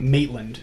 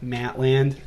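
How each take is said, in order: First: The first vowel sounds like 'mate'. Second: The first vowel sounds like 'mat'. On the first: The speaker calls it right. "It's Maitland" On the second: The speaker calls it wrong. "I'm like Matland. I'm like a Delco accent"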